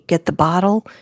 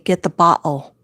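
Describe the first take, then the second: First: It is said in a plain accent. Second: It is said in the grandmother's accent.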